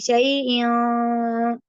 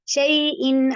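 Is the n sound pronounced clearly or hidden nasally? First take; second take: hidden nasally; clearly. First: The n sound is hidden in a nasal hum. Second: The n sound is pronounced clearly and directly. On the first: The speaker calls it wrong. "यहाँ पे हम ऐसे नहीं पढ़ेंगे" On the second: The speaker calls it right. "इसको सीधा ही पढ़ जाएँगे"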